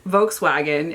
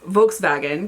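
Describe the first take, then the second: First: The second part begins with a W sound. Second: The second part begins with a V sound. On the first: This is how Americans say it. The speaker calls it wrong. "we're just butchering all of it" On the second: This is how it is said in Germany. The speaker calls it right. "because W's are V's over there"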